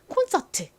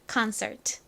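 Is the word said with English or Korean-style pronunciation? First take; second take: Korean; English. First: It is said with Korean-style pronunciation. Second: It is said with English pronunciation. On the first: "한국식으로는 이 단어를 콘서트 보통 이렇게 표기하고 발음합니다" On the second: "연결해보면 concert가 됩니다"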